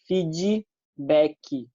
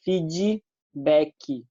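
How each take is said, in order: First: It is said with a Brazilian Portuguese pronunciation. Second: The same.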